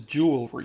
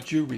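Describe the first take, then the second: First: All of the word's sounds are pronounced. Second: Some of the word's sounds are left out. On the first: The speaker calls it right. "There's other letters in there" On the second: The speaker calls it wrong.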